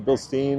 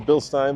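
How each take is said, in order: First: It is pronounced an anglicized, non-German way. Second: It is pronounced the German way. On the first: "I've heard people say" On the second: "the German way of pronouncing it is"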